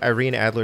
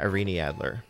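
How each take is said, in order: First: The name is said the common American way. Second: The name is said the original, intended way. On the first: The speaker calls it wrong. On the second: The speaker calls it right.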